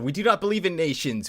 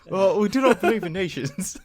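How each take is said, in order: First: It is said in the speaker's plain voice. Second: It is said in a put-on British Cockney accent.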